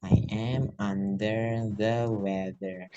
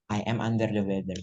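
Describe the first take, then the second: First: Very slow, each word stretched out; slow model phrase. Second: Said in the usual way. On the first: Shown as a demonstration. Teacher showing learners the whole phrase, slowly stretched. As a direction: draw every word out for learners.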